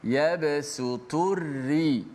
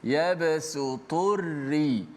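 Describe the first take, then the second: Both takes have the same delivery.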